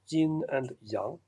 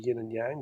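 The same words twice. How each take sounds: First: It is said with a Chinese-style pronunciation. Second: It is said with a Western-style pronunciation. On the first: The speaker calls it right. "but it's pronounced" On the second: The speaker calls it wrong. "in the West we say"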